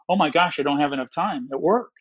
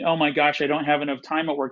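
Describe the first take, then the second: First: It sounds excited and energized. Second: It sounds dismayed and stressed.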